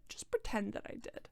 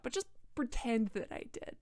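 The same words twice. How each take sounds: First: Repeated softer and breathier; soft aside. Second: Said in the usual way. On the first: Shown as a demonstration. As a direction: drop it to a hushed aside.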